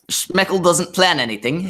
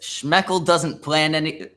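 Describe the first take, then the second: First: It is read in a put-on British accent. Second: It is read in the speaker's ordinary accent. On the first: The speaker calls it right. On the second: The speaker calls it wrong.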